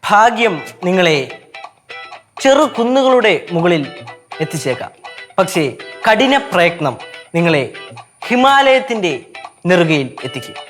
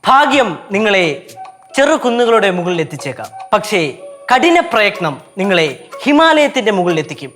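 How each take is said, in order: First: The sentence is said slowly. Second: The sentence is said fast.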